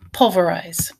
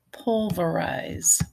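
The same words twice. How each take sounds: First: Said in the usual way. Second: Pulverize drawn out, syllable by syllable; slow dictation. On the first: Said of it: "Write it down". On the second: Shown as a demonstration. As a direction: stretch pulverize for a speller. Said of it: "A little bit more challenging".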